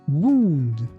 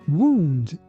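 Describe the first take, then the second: Both takes have the same delivery.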